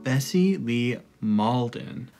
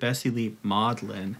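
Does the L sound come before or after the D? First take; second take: before; after. First: The L sound comes before the D. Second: The L sound comes after the D. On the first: The speaker calls it right. "This is about Bessie Lee Malden" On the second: The speaker calls it wrong. "he said Bessie Lee Maudlin. But the L is in a different spot"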